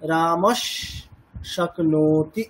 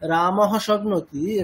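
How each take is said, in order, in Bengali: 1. প্রথম শব্দটি s ধ্বনি দিয়ে শেষ হয়। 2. প্রথম শব্দটি h ধ্বনি দিয়ে শেষ হয়।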